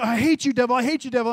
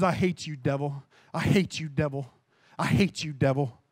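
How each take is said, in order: First: Rising up against the devil; angry rebuke. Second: Grit it out low and hushed, over and over; angry at the devil. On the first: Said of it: "So I just began to say". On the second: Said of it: "I got so angry". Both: Retold or imitated.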